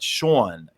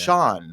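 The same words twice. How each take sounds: First: The name is said in a New York accent. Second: The name is said in a neutral accent. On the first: The speaker calls it wrong. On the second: The speaker calls it right. "so I say"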